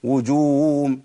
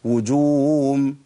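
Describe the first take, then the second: First: The h sounds are lost into a w sound. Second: The same.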